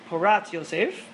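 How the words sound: The name is said with Sephardi Hebrew pronunciation.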